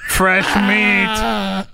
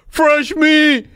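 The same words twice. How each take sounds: First: Creepy creature voice, drawn out; leering manatee. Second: High leering manatee. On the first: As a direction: leer like a hungry sea cow. Voicing lecherous manatees. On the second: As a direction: squeal it like a giddy sea cow. Repeating manatee line, laughing. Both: Acted.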